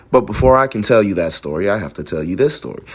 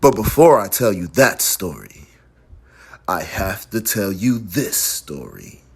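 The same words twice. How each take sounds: First: Brisk, low-pitched matter-of-fact read; informational reading. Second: Story narration. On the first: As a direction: read it straight through as plain information. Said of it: "If this sentence was information, it would be". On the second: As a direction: narrate it like a story, pausing midway and sinking lower. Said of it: "But this is a story, so it's". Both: Shown as a demonstration.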